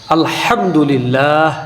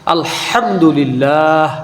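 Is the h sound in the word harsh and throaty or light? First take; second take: harsh; harsh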